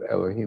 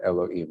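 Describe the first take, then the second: First: The h sound in the middle is clearly heard. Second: The h sound in the middle is dropped. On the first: The speaker calls it right. "instead of Elohim" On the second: The speaker calls it wrong. "the hey disappears completely"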